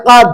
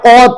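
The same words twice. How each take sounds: First: "কাদ" with a long আ and a plain ক; wrong reading from the book. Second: "কদ" with a short, thick, heavy ক; correct Arabic pronunciation. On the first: Teacher reading the book's mistaken "কাদ" with a long আ. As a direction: read "কাদ" as the faulty book prints it, long আ. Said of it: "এখানে দিছে কাদ". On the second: Teacher giving the right Arabic sound "কদ" with a short, heavy ক. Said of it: "কফের উচ্চারণ ক করে হবে, মোটা করে হবে". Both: Shown as a demonstration.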